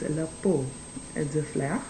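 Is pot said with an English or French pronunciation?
French. Pot is said with a French pronunciation. The speaker calls it right. "No, it's le pot de fleurs"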